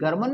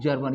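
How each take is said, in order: First: It begins with a hard G sound. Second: It begins with a J sound. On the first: The speaker calls it wrong. "ये गर्मन नहीं है" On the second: The speaker calls it right. "ये जा का sound देगा"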